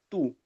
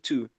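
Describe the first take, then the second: First: The t is dry and the vowel is u. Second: The t is drawn out with a breathy release. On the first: This is how Indian English speakers say it. "com o T seco" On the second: This is the usual American way. "esse puxadinho"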